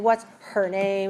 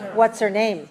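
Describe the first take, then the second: First: The h in 'her' is clearly pronounced. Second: The h in 'her' is dropped. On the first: "we don't have to say what's her name" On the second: "We can say what's her, what's, what's her name"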